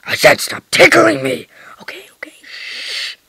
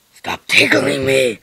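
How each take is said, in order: First: Hushed unvoiced repeat; whispering. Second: Much lower, slow, gruff-sounding protest; deep toy voice. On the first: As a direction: whisper it so nobody hears. Whispered repeat of the tickle protest. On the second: Pretend. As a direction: growl it out like a big beard. Toy character being tickled.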